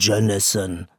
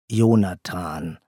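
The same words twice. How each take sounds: First: The name is pronounced with English sounds. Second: The name is pronounced with German sounds. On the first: The speaker calls it wrong. "nicht Jonathan, obwohl der Vater Amerikaner ist" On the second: The speaker calls it right. "Unser Jonathan"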